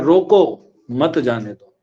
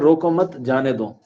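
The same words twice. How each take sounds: First: The pause comes after 'roko'. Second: The pause comes after 'mat'.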